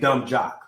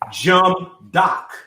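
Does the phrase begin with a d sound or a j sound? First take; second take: d sound; j sound. First: The phrase starts with d and ends with jock. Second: The phrase starts with j and ends with doc. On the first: The speaker calls it right. "she didn't say dumb jock" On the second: The speaker calls it wrong. "She said jump doc"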